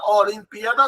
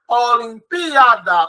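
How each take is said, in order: First: Said in the usual way. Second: Olimpíada slowed, leaning on the PÍ; slow, emphatic Olimpíada with a marked PÍ; stress on antepenult. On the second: Shown as a demonstration. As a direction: draw out Olimpíada and hit PÍ. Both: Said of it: "sim, é uma palavra proparoxítona".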